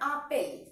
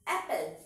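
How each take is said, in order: First: The first vowel is an open 'ah' sound. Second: The first vowel is like 'a' in 'cat'. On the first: The speaker calls it wrong. "Not আপেল" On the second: The speaker calls it right. "কিন্তু এর pronunciation দেখো অ্যাপেল"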